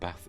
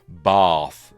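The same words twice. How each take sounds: First: It is said in the speaker's plain accent. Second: It is said in a posh accent.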